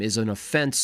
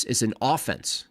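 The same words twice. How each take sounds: First: "offense" as uh-FENSE; second-syllable stress. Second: "offense" as AW-fense; first-syllable stress. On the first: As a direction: say "offense" with a weak first vowel, stress on the end. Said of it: "is an offense. That's an offense". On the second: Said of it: "That's an offense". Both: Real, not acted.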